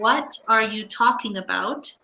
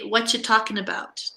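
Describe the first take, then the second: First: The word are is pronounced. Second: The word are is dropped. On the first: "instead of saying" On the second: "in Canada, we would say"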